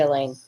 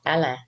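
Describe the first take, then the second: First: The name is said with an American pronunciation. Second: The name is said with a Cajun pronunciation. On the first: This is how Americans say the name. "to Americans, it would be Elaine" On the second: This is how Cajuns say the name. "Or if you're a Kunas, it would be called Alain"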